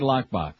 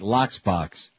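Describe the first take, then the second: First: The word is said plainly without an extra s. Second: The word is said with an extra s after lock. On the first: "say lockbox" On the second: "as they say at the deli"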